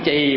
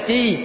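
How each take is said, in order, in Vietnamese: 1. Cao độ xuống thấp. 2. Cao độ giữ bằng suốt. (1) "bỏ dấu quyền thành chì" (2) "chứ không phải là chi"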